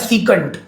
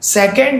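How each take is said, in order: First: The first vowel is a long 'ee' sound. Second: The first vowel is a short 'eh' sound. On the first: "कोई इसे सीकंट बोलता है" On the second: "कोई इसे सेकंड बोलता है"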